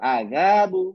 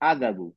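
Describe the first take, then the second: First: The middle vowel is stretched slightly. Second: The middle vowel is short and unstretched. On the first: "আলিফ চলে আসছে, আমি বলবো" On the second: "এই আলিফ না থাকলে বলতাম"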